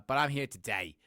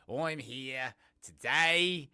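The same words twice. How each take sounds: First: Said in the usual way. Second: Slow, higher, louder announcement of being present; hammed-up, slow and loud repeat; playfully drawn out. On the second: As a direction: stretch "here" and "today" out long.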